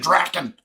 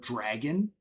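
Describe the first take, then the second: First: The middle consonant is a K sound. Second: The middle consonant is a hard G sound. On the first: "that's how I always pronounce the word dragon" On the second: "the word dragon"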